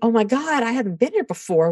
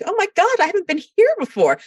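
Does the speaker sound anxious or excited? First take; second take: anxious; excited. First: The voice sounds worried and anxious. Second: The voice sounds thrilled and excited. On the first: New territory is frightening. The speaker calls it wrong. "instead of saying" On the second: New territory is an achievement to celebrate. The speaker calls it right. "we have to be like"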